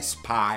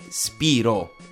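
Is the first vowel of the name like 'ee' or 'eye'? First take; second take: eye; ee. First: The first vowel sounds like 'eye'. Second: The first vowel sounds like 'ee'. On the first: This is the popular English-style reading. The speaker calls it wrong. "non è Spyro" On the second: This follows the Greek origin of the name. The speaker calls it right. "È Spiro. ... viene dal greco Piro"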